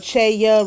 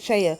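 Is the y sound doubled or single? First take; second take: doubled; single. First: The y sound is held long, doubled. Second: The y sound is short, single. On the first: The speaker calls it right. "or cheya" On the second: The speaker calls it wrong. "rather than"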